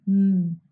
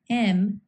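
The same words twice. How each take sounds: First: "m" as a held hum, mmm; voiced consonant sound. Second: Said in the usual way. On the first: Shown as a demonstration. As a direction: hum "m" on closed lips, not the letter name. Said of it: "we must vibrate our vocal cords". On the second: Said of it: "Examples of voiced consonants".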